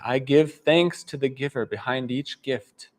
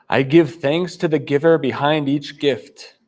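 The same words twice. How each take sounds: First: It is said softly. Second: It is said loudly.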